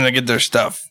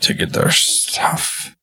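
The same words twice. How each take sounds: First: It is said without the character's put-on voice. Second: It is said in the character's put-on voice. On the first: The speaker calls it wrong. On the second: The speaker calls it right.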